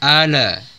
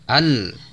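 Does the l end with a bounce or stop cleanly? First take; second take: bounce; clean stop. First: The l is released with an extra bounce. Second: The l is held without a bounce. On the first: The speaker calls it wrong. "jangan dibaca" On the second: The speaker calls it right. "lamnya tidak dipantulkan"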